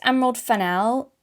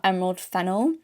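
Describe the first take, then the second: First: Fennell with the stress on the second syllable, fen-NELL; corrected name pronunciation. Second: Fennell said like the herb fennel, FEN-ul; rejected name pronunciation. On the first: Video essayist correcting how a director's name is said, stressed fen-NELL. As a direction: say Fennell as fe-NELL, leaning on the ending. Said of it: "I think it's Emerald Fennell and not". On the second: Video essayist giving the wrong but preferred name, said FEN-ul. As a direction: stress the first syllable of Fennell and swallow the ending. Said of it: "I like how Fennell sounds better".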